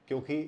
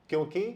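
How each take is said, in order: The two takes are said the same way.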